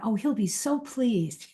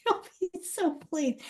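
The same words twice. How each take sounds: First: Said in the usual way. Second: Softer and slower, laughing at her own hope; a rueful chuckle on the line; ironic laughing repeat. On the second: Shown as a demonstration. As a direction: repeat it wryly through a laugh.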